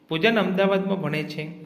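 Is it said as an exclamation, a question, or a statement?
statement. It is said with a flat stating tune. The speaker simply gives information. "વિધાન વાક્ય"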